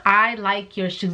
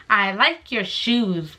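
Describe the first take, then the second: First: Said in the usual way. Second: "I like your shoes" drawn out slowly; slow self-quote. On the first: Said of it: "Four fucking words". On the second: Retold or imitated. Quoting her own compliment to him, slow and deliberate. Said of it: "I only said".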